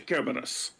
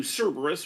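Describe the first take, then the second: First: Kerberos as "KEH-ber-os"; hard K pronunciation. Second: Cerberus as "SER-ber-us"; English S sound in Cerberus; English pronunciation. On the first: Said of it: "also uses a hard K sound". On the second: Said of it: "in the English, we do". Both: Shown as a demonstration.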